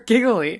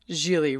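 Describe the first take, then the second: First: The second g is hard, rhyming with wiggly. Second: The second g is smoothed, rhyming with really. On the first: "People want to say jiggly or giggly" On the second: "smooths out the second G and pronounces it Gigli, rhymes with really"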